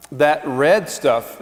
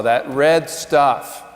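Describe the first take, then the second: First: Red drawn out, slow; stress on red. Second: Slow, red stretched; stress on red again. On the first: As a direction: slowly lean on red. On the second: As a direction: dwell on red. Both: Shown as a demonstration. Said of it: "gonna keep beating this drum".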